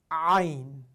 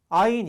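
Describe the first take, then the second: First: The opening vowel is squeezed from a tight throat. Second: The opening vowel is plain and relaxed. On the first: The speaker calls it right. "턱을 당겨서 목구멍을 닫은 상태에서" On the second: The speaker calls it wrong. "이게 아니에요"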